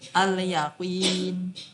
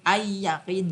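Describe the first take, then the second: First: The L sound is pronounced clearly. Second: The L sound becomes a doubled Y. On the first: The speaker calls it right. "alnya dibaca jelas" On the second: The speaker calls it wrong. "nggak bisa ay-yaqin"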